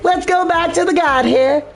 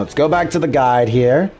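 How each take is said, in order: First: It is said in a put-on southern character voice. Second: It is said in the speaker's ordinary voice.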